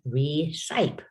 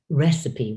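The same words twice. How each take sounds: First: It is sounded out letter by letter. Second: It is said with its usual pronunciation. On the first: The speaker calls it wrong. "If you use all of your decoding skills you learned in K one and two, you're going to say recipe" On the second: The speaker calls it right. "this word is recipe"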